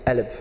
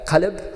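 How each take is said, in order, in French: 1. Il commence par une voyelle, le 'q' est tombé. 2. Il commence par la consonne 'q', une consonne profonde et postérieure. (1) "mais en arabe libanais, on dit alb" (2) "en arabe standard, c'est euh, qalb"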